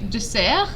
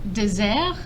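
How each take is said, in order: First: The middle consonant is a hissing S sound. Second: The middle consonant is a buzzing Z sound. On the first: It means a sweet course after a meal. The speaker calls it right. "you say dessert" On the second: It means a dry, sandy wasteland. The speaker calls it wrong. "and not dessert"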